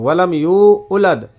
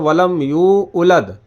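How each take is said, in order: Both takes have the same delivery.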